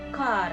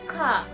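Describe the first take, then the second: First: The word ends with an audible r sound. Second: The word ends on a vowel with no r. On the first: The speaker calls it wrong. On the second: The speaker calls it right.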